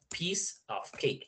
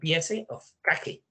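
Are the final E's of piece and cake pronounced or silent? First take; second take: silent; pronounced. First: The final E sounds are silent. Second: The final E sounds are pronounced aloud. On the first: The speaker calls it right. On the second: The speaker calls it wrong.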